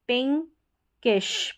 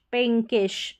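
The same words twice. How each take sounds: First: पिंकिश slowly split as "pink, kish"; slow two-part पिंकिश; syllable-by-syllable demo. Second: पिंकिश said as one word, "pinkish"; "pin-kish" in पिंकिश without a long break; joined-up word. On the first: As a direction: break पिंकिश before the ending. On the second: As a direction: run पिंकिश together. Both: Shown as a demonstration. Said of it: "इसी तरीके से सारे".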